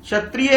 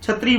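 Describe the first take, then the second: First: Every vowel sound in the word is pronounced. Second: One vowel sound in the word is left out. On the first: The speaker calls it right. "क्षत्रिय है" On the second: The speaker calls it wrong. "स्वर का लोप कर दिया"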